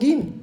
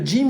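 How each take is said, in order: First: It begins with a hard g sound. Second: It begins with a soft j sound. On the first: This is how Egyptians and some Yemenis say it. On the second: This is the usual pronunciation of the letter.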